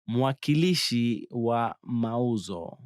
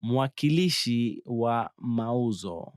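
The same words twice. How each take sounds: The two takes are said the same way.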